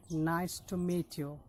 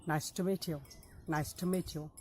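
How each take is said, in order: First: Each word spaced out, slow; slow careful demo. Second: Words linked in a quicker run; faster. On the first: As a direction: model it slowly for learners to repeat. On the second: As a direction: say it quickly as one phrase. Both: Shown as a demonstration. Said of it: "if you say it faster".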